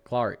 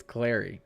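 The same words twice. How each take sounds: First: Clary said as CLAR-ee; first vowel of Clary as in "car"; trying a pronunciation. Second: Clary said as CLAIR-ee; first vowel of Clary as in "air"; trying a pronunciation. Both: Shown as a demonstration. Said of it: "don't even know how to pronounce".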